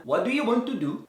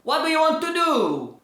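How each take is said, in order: First: Different English accent. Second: Another English accent. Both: Shown as a demonstration. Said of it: "Tá tudo com sotaque diferente".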